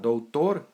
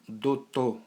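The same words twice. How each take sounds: First: The diphthong ou and final r are pronounced. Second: A plain o replaces ou and the r drops. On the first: "em vez de falar doutor" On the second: "tira o ditongo, o, u, e esse passa a ser somente a vogal o, e o R desaparece"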